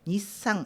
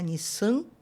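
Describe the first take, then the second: First: The word ends with a clearly closed n sound. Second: The final vowel is nasalized without a closed n. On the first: The speaker calls it right. "mas é Nissan" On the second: The speaker calls it wrong. "Você não vai pronunciar Nissan nasalando"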